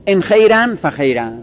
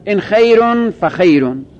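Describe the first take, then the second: First: ان خیرن فخیرن with -an endings on both nouns; both words in accusative. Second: ان خیرون فخیرون with -un endings on both nouns; both words in nominative. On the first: Teacher showing students the accusative reading, clear -an endings. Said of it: "گاهی به نصب هر دو میخونند". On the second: Teacher showing students the nominative reading, clear -un endings. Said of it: "گاهی به رفع هر دو میخونند". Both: Shown as a demonstration.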